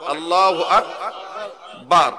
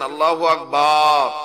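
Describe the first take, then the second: First: The last syllable of Akbar is kept short. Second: The last syllable of Akbar is drawn out. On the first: The speaker calls it right. "আল্লাহু আকবার বলেন" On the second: The speaker calls it wrong. "এটা অশুদ্ধ। ... বার বললে"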